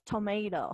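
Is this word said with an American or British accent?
American. The word is said with an American accent. "Nosotros en el inglés americano decimos tomato"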